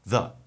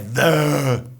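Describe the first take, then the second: First: The vowel is a short, relaxed 'uh'. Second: The vowel is a long 'ee'. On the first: The speaker calls it right. "a gente usa o schwa" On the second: The speaker calls it wrong. "Não é the"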